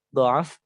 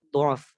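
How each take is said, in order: First: The vowel after the first consonant is a. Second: The vowel after the first consonant is u.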